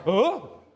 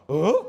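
First: Amazed huh. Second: Louder, stunned huh; a bigger mock gasp of wonder; more amazed huh. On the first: Retold or imitated. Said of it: "Ganun yung sa Pangasinan". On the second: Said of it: "medyo mas na-amaze pa".

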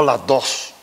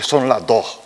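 First: "las dos" with a clear S ending "dos"; full final S. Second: "son las dos" with "dos" as "doh"; Canarian aspirated S. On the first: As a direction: sound the last S of "dos". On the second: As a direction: drop the final S of "dos". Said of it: "le sale decir eso de". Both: Shown as a demonstration.

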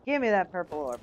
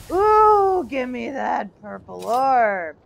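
First: Said in the usual way. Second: Slow, eager demand; greedy drawn-out call. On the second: Real, not acted. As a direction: stretch it out hungrily. Gamer eagerly calls for an item.

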